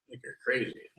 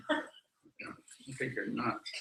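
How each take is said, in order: First: Said in the usual way. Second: Lips barely moving, under the breath; softer, very slow ventriloquist mutter. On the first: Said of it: "I would not say that". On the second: Shown as a demonstration. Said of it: "I would say it like a ventriloquist".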